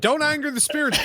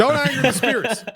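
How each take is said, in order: First: High mock-ominous warning. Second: High, louder mock-ominous warning. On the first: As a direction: warn them like a spooked medium. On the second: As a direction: repeat the warning, hammed up higher.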